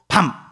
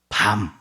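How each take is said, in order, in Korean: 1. 모음을 짧게 발음해요. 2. 모음을 길게 발음해요.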